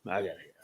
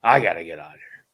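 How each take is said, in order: First: Dropped to a muttered repeat. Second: Imitating the journeyman blurting it out fast; fast frustrated outburst. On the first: Retold or imitated. Journeyman repeating it to himself, muttered. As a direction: say it again under the breath. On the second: Journeyman to the storyteller, fast fed-up outburst. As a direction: rush it out, fed up. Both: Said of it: "He's like".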